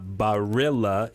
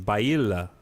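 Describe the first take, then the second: First: It is said with a plain American accent. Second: It is said with an Italian-style accent. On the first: The speaker calls it wrong. "It's not Barilla" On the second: The speaker calls it right. "That was a nice Italian accent"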